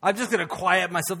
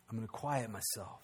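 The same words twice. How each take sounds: First: Said in the usual way. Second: Much softer, lower resolve; hushed, settling into calm; quiet. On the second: Retold or imitated. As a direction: drop the voice as if stilling yourself. Resolve voiced softly.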